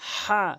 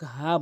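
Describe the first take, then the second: First: The h sound is pressed from the throat. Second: The h sound is light and breathy. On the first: The speaker calls it right. "হা বলতে হবে চাপ দিয়ে হলকের মাঝখান থেকে" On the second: The speaker calls it wrong. "অধিকাংশ লোক হা বলে থাকে"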